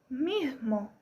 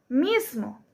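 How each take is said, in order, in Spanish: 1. La s del medio suena como h. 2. La s del medio es un siseo claro. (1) "pero si se aspira la S, sería mismo" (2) "en la palabra mismo es muy notorio la S"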